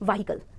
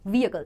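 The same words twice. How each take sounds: First: The h sound is strong and separate. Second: The h sound is slight and blended in. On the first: The speaker calls it wrong. "Not" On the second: The speaker calls it right. "एच sound बहुत dominant नहीं है, ये बहुत ही slight"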